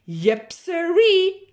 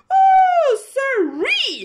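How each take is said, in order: First: Louder, higher, slow drawled yep sirree; cow's folksy yep. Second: Very high, loud shrieking oh sirree; panicked cry. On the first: Cow agreeing to the good plan, slow. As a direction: drag it out like a happy cow. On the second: Cow shrieking as the plane wobbles, panicked. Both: Acted.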